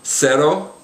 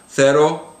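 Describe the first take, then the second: First: The first consonant is an s sound. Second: The first consonant is a th sound. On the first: This is the Latin American pronunciation. "the Latin American soft C ... it's pronounced like an S" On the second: This is the pronunciation used in most of Spain. "in most of Spain, it's pronounced with a T H kind of a sound"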